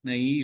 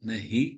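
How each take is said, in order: First: The h sound is light, not from the throat. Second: The h sound comes from deep in the throat. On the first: The speaker calls it wrong. "நஹி இல்ல" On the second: The speaker calls it right. "நஹி தொண்டையிலேருந்து வரணும்"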